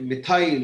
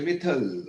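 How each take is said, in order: First: The ending is a full 'ile' diphthong sound. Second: The ending is a short, reduced 'uhl' sound. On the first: This is how people here say it. "हम लोग बोलते हैं मिथाइल" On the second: This is how foreigners say it. "वो बोलते हैं मिथल"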